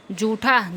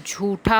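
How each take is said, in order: First: जूठा with unaspirated j; wrong pronunciation. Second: झूठा with breathy jh; correct pronunciation. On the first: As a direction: say जूठा as jootha. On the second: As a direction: say झूठा as jhootha. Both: Shown as a demonstration. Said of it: "झूठा होता है".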